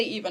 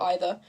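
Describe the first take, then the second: First: First syllable of "either" rhymes with see; "either" as EE-ther. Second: First syllable of "either" rhymes with sigh; "either" as EYE-ther. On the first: Streamer showing her pronunciation, "either" as EE-ther. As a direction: say "either" with an ee vowel at the start. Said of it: "How do I pronounce either?". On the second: Streamer showing the rejected variant, "either" as EYE-ther. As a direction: say "either" with an eye vowel at the start. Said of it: "I say either, not either". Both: Shown as a demonstration.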